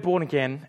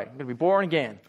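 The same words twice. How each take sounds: First: Said in the usual way. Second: Put-on low, joking American accent. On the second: Preacher joking with congregation about hearing "born again", American accent. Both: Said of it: "I just think American accent straight away".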